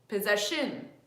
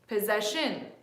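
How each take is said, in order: First: The stress is on the third syllable. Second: The stress is on the third syllable.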